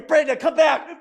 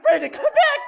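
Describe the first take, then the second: First: Coaxing call. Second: Squealed plea. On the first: Auctioneer coaxing bidder back in. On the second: Same plea, pitched much higher. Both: Real, not acted.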